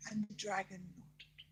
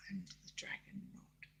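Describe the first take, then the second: First: Said in the usual way. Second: Hushed, breathy storyteller whisper; whispered narration. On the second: A narrator's reading. Grandma telling bedtime story to child, whispering.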